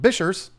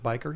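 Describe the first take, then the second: First: It sounds like bishers, ending in an s. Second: It sounds like biker, with a k sound. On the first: "be a weirdo like Tanner Serpa and call him Bishers" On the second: "I pronounce it biker"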